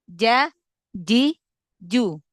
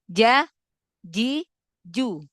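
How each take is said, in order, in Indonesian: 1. Konsonannya tegas, seperti j. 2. Konsonannya tegas, seperti j.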